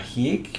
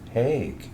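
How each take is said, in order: First: The surname is said with German pronunciation. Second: The surname is said with American pronunciation. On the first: The speaker calls it wrong. "Herr Hiek" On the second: The speaker calls it right. "it's Hague, which I'd done all my life, correcting people"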